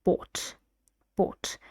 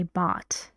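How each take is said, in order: First: "bought" with a rounded aw vowel, like "bawt"; rounded pronunciation. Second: "bought" with an open ah vowel, like "baht"; American pronunciation. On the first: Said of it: "but in here it's bought". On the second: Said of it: "So in American English, we say bought". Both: Shown as a demonstration.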